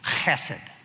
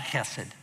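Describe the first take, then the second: First: It begins with a harsh, raspy throat sound. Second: It begins with a soft, plain h sound. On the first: The speaker calls it right. "You spit on people when you say it that way" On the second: The speaker calls it wrong. "It's not hesed"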